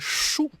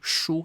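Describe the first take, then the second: First: The syllable is said with a falling tone. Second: The syllable is said without a falling tone. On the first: It means numbers. "the fourth tone of the same pronunciation" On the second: It means books. "Shu as in books"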